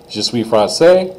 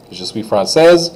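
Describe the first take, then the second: First: Slow je suis français, rising, no S; silent S. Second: Je suis française ending in Z. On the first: Teacher models the boy's sentence, S silent in français. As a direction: end français on the vowel. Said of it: "don't say that S at all". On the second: Teacher models the girl's sentence, Z in française. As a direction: close française on the Z. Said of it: "I say the S like a Z sound". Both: Shown as a demonstration.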